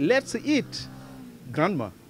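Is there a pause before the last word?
yes. There is a pause before the last word. The speakers invite their grandmother to eat. "elle aurait compris « Grand-mère, allons manger »"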